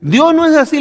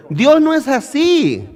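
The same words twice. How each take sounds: First: Dios hit higher and louder; raised emphatic. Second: Dios stressed, slow and firm. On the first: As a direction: proclaim Dios no es así. ("Dios" más alto y fuerte) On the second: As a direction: lean on Dios. (acento en "Dios", lento y firme) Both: Shown as a demonstration. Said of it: "Les estoy dando un ejemplo".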